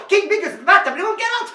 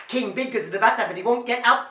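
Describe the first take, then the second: First: High, breakneck gabble; super duper fast. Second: Rapid-fire refrain; very fast. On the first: Storyteller pushing the children's speed, super duper fast. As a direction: cram it into one frantic burst. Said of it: "Super duper fast". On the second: Storyteller challenging children to keep up, very fast. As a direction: race through the words. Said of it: "Can you go faster?". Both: Shown as a demonstration.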